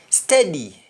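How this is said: The word begins with an s sound. "words that start with S T"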